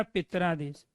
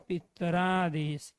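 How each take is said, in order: First: Said in the usual way. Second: पितरादेश drawn out syllable by syllable, slow; slowly spelled out. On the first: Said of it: "ये शब्द क्या बन गया". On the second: Shown as a demonstration. Teacher to students, says पितरादेश slowly so every part is heard. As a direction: stretch out पितरादेश slowly for the class. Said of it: "तो ये शब्द क्या बन गया".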